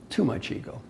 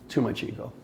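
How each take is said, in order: First: Soft, breathy under-the-breath remark; quiet aside. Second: Soft, low under-the-breath repeat; quiet aside. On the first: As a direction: drop it to a near whisper. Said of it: "punchline on ego". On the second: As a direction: let it fall away softly. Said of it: "repeated punchline on ego". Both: Real, not acted.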